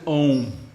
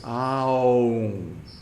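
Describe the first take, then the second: First: It is one short clipped vowel sound. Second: It is long, gliding through ah, oo, mm. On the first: The speaker calls it wrong. "people take a shortcut and pronounce it Om" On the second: The speaker calls it right. "this is the proper way to pronounce Aum"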